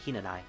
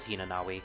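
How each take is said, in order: First: The name has no 'w' sound before the end. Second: The name has a 'w' sound before the end. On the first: The speaker calls it right. "now her name is supposed to be pronounced" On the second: The speaker calls it wrong. "For the longest time, I thought it was Hinanawi"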